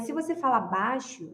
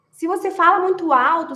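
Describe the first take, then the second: First: Softer, showing the soft way; speaking softly. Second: A little louder, showing the loud way; speaking too loud. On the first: Advising wives, demos speaking softly. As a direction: drop the voice to a hush-free softness. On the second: Advising wives, demos a louder voice. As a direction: push it up like talking too loud. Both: Shown as a demonstration.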